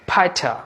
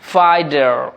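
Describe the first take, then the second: First: A British accent with a clear t and no r. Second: An American accent with a d-like t and r. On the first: "British অ্যাকসেন্টে এই ওয়ার্ডটির উচ্চারণ হবে ফাইটা" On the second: "তারা রটা উচ্চারণ করছে আবার টটাকে ড করছে"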